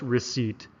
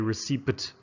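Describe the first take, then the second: First: The P sound is silent in the word. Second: The P sound is pronounced in the word. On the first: The speaker calls it right. "This is just receipt" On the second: The speaker calls it wrong. "The P is silent here. We don't say receipt"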